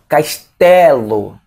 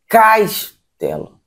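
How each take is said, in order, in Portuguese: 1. A tônica está na segunda sílaba. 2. A tônica está na primeira sílaba. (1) "Ou ficaria melhor" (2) "se eu botar o K como mais forte"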